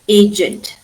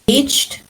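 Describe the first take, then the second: First: The ending is an extra id syllable. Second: The ending is a plain d sound.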